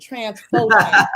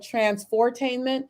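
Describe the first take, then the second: First: The R sound after "trans-fo" is dropped. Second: The R sound after "trans-fo" is pronounced. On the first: "you say it without the R" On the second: "I call it transfortainment"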